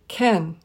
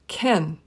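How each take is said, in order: First: The vowel is reduced to a short e. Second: The same.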